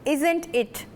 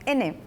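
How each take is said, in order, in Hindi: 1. दोनों शब्दों की सारी ध्वनियाँ बोली जाती हैं। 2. यह एक छोटे शब्द में कट जाता है। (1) "अगर हमने पूछना हो isn't it" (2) "ब्रिटिश में थोड़े कटे कटे कटे वर्ड्स होते"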